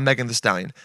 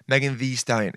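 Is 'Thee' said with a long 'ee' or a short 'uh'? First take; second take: short uh; long ee. First: The word 'Thee' has a short 'uh' vowel. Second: The word 'Thee' has a long 'ee' vowel. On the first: The speaker calls it wrong. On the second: The speaker calls it right. "I'll say two"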